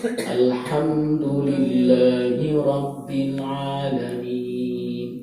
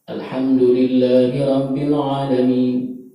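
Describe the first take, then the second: First: The phrase is recited slowly and deliberately. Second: The phrase is recited at a moderate pace. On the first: "Ada tartil" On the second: "Ketiga ada yang namanya tadwir"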